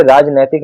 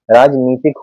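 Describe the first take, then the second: First: राजनैतिक said raajnaitik with ai; wrong form. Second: राजनीतिक said raajneetik with a long ee; correct form. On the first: Teacher showing students the wrong form, राजनैतिक said with ai. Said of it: "नहीं होता". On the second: Teacher giving students the correct form, राजनीतिक said with a long ee. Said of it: "होता है". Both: Shown as a demonstration.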